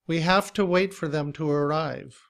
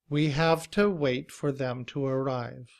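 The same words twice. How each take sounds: First: The sentence is said at a fast pace. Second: The sentence is said at a slow, careful pace.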